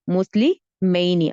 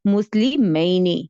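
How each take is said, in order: First: مسلمینی said slowly with each syllable drawn out; slow model word. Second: Said in the usual way. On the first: Shown as a demonstration. Teacher to her students, repeating the word slowly. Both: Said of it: "مثنیٰ same ہوگا مسلمینی".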